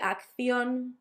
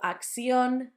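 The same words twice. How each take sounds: First: The second c sounds like 'th'. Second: The second c sounds like 's'. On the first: "I would say" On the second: "third sound can be substituted for a s"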